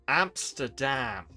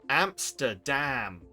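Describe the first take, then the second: Both takes have the same delivery.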